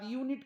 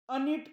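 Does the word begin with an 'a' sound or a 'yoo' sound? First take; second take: yoo sound; a sound. First: The word begins with a 'yoo' sound. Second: The word begins with a short 'a' sound. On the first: The speaker calls it right. "तेव्हा यूचा उच्चार अ न करता यू करतात" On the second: The speaker calls it wrong. "मग याला अनिट का म्हणत नाही?"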